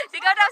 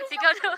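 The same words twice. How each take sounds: First: A real cheer this time, called out; louder shout. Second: Laughing shout. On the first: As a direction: shout it across the pool. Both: Shown as a demonstration.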